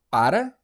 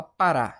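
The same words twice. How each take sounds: First: "para" stressed on PA, questioning rise; stress on first syllable. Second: "Pará" stressed on the final RÁ; stress on last syllable. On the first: Teacher testing the wrong stress for students, "para" stressed on PA. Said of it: "A gente fala para". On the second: Teacher showing students the right stress, "Pará" stressed on RÁ. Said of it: "a gente fala Pará". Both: Shown as a demonstration.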